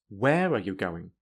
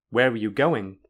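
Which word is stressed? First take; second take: where; going. First: The strongest stress falls on the word where. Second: The strongest stress falls on the word going. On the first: "add strong stress to where" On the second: "in a normal way, then the syllable with the most stress is go"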